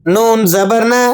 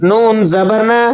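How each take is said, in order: No difference in how they are said.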